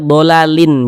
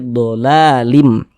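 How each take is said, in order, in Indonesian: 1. Akhirannya bunyi n yang jelas. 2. Akhirannya melebur menjadi bunyi m. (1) "Jangan dibaca dolalin" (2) "tapi dolalim"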